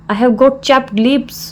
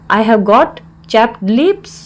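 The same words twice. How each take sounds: First: Said in the usual way. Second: Slow, word-by-word teaching delivery; slow repeat. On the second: Shown as a demonstration. Teacher repeats the English phrase for learners, slowly.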